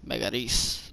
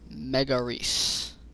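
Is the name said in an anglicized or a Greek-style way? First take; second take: Greek-style; anglicized. First: The name is said with a Greek-style pronunciation. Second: The name is said with an anglicized pronunciation. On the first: The speaker calls it right. "like that, like a Greek would say it" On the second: The speaker calls it wrong.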